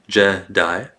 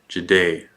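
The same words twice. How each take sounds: First: The stress falls on the E vowel. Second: The stress falls on the I vowel. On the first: "Jedi stresses, the E" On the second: "versus Jedi, the I"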